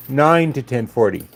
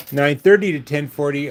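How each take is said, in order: First: NINE lifted and leaned on; stress on NINE. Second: THIRTY lifted above the rest; stress on THIRTY. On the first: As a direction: make "nine" stand out, then fall away. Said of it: "what I keep trying to say is". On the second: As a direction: lean on "thirty", then level out. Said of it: "instead of". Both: Real, not acted.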